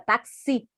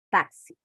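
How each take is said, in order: First: The stress is on the last syllable. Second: The stress is on the first syllable. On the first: The speaker calls it wrong. "Se eu não colocar o acento aqui no A, o que, que acontece? Fica taxi" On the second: The speaker calls it right. "Eu preciso colocar um acento aqui no táxi"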